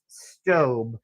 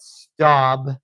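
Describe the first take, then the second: First: The vowel sounds like 'oh'. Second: The vowel sounds like 'ow'. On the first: The speaker calls it right. "It is, in fact, pronounced Stobe" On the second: The speaker calls it wrong. "a lot of people call it Staub"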